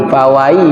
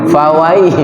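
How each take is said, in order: No difference in how they are said.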